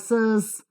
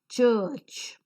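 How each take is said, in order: First: The word begins with an s sound. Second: The word begins with a ch sound. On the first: The speaker calls it wrong. "or sirs" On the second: The speaker calls it right. "The same letter C in the third example is pronounced as ch"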